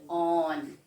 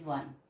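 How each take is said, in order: First: The word begins with a plain vowel sound. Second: The word begins with a W sound. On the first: The speaker calls it wrong. "We never said on" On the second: The speaker calls it right. "We say one"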